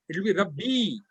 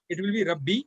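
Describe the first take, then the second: First: The final vowel is held long. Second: The final vowel is short. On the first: It means my Lord. "when that ya is there" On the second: It means Lord, without my. "if that ya is missing"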